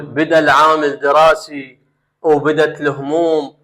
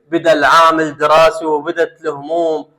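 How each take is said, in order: First: The 'w' before 'badat' is pressed or held. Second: The 'w' before 'badat' flows on plainly.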